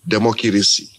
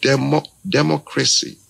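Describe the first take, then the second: First: Broken African English. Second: English pronunciation. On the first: [name] showing how an African man says the word in broken English. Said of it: "the African man wants to say it in broken". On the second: [name] showing listeners the English way to say the word. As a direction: mimic how an Englishman says democracy. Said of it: "the Englishman will say". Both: Retold or imitated.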